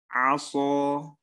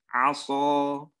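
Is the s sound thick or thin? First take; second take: thick; thick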